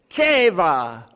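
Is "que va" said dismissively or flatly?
dismissively. It is said with scornful, dismissive feeling. The speaker calls it right. "They say, "Que va," like that"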